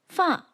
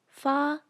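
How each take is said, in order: First: The pitch falls downward. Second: The pitch stays level throughout. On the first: "falls like this" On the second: "maintains its pitch from start to finish"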